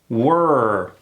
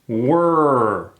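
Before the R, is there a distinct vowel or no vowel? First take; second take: no vowel; no vowel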